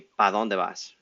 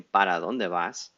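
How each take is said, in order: First: The first word is shortened to one syllable, pa. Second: The first word is the full two-syllable para. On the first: "Sometimes we say pa dónde vas" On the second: "we don't say para dónde vas"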